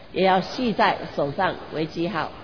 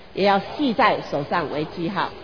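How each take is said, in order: Both takes have the same delivery.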